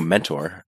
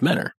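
First: It is said the ordinary, standard way. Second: It is said the local Cleveland-area way. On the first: This is the everyday word for an advisor. "I know mentor, but it's not the same as Menor" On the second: This is the name of a town near Cleveland. "We pronounce it Menor"

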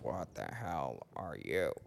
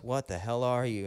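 First: The final word you is slightly emphasized. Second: The final word you carries no special emphasis. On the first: The question is turned back on the one who asked it. "there's a slight emphasis on the you" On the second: It is a genuine question about what the other is. "whenever Arnold goes"

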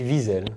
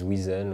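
First: The name is said the speaker's own Swiss way. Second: The name is said the way French speakers say it.

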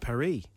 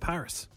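First: Paris is said with French pronunciation. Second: Paris is said with English pronunciation. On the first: This is what the locals call it. "they call it Paris" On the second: This is what English speakers call it. "But we call it Paris"

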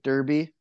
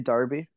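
First: The word has a North American pronunciation. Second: The word has a British pronunciation. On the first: "they're talking about Derby, and it's like Derby" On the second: "in England, they say Derby"

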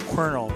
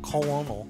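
First: It is said like kernel. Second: It is said as spelled, col-o-nel. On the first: The speaker calls it right. "but I know it's Colonel" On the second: The speaker calls it wrong. "I always want to say that Colonel, C-O-L-O-N-E-L"

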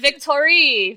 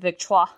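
First: The name is said like the English word victory. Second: The name is said in a French way. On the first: The speaker calls it wrong. "Victorie, because victory" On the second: The speaker calls it right. "I was not pronouncing it Victoire"

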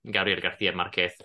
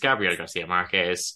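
First: It is said in a Spain Spanish accent. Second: It is said in a Latin American Spanish accent.

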